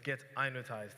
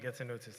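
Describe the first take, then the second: First: It sounds like get-in-notized, with a z sound. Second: It sounds like the words getting noticed. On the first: The speaker calls it right. "it's Get I Notized" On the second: The speaker calls it wrong. "I got it wrong the first time. I said Getting Noticed"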